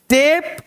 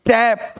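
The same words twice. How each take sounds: First: टेप with a held "ay"; टेप with the closed vowel; long "ay" vowel. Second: टैप with a wide "ae"; टैप slowly with the open vowel. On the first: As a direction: say टेप as "tayp". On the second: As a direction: say टैप as "tap". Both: Shown as a demonstration. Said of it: "वहाँ ए और यहाँ ए".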